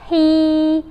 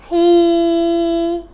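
First: The vowel is short. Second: The vowel is long.

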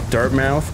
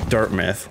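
First: It is said plainly, not like the university. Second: It is said like the university's name.

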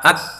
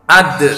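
First: The final d stops flat with no echo. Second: The final d ends with an echoing bounce. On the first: The speaker calls it wrong. "Tidak boleh hanya dibaca ad gitu aja" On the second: The speaker calls it right. "tapi harus ada pantulannya"

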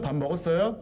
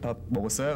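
First: The voice is pitched noticeably higher. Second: The voice is pitched at a normal, lower level. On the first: The speaker sounds like a young boy. "뭐 그렇게 톤을 높이고" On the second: The speaker sounds like an adult. "24살은 아 근석 씨 밥 먹었어요 그러는데"

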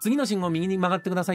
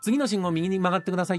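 First: The g sounds are soft and nasal, like ng. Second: The g sounds are soft and nasal, like ng.

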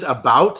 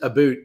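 First: The word is said in a plain accent. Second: The word is said in a Canadian accent.

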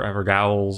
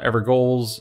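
First: The ending is pronounced like gowl. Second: The ending is pronounced like goal. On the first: "any other odd pronunciation" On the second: "not Evergoals or Evergowls or any other odd pronunciation"

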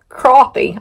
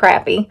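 First: The first vowel sounds like in 'cot'. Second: The first vowel sounds like in 'cat'. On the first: This is how some other people say the name. "that's not even how it's spelled" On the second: This follows the spelling of the name. "It's spelled crappy, so I call it crappy"

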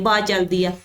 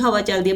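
First: The first word is shortened to ba. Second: The first word is said in full, hawa. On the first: This is the Malwai dialect form. "ਬਠਿੰਡੇ ਮਾਨਸਾ ਵਾਲੇ ਕਹਿਣਗੇ ਬਾ ਚੱਲਦੀ ਆ" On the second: This is the standard form. "ਹਵਾ ਕਹਿੰਦੀ ਨਹੀਂ"

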